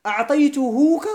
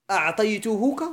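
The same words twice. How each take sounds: First: أعطيتهوك said higher and louder with a rising tune; teacher offering a wrong form to the class; questioning the wrong form. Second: Said in the usual way. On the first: Shown as a demonstration. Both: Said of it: "هل يجوز أن أقول".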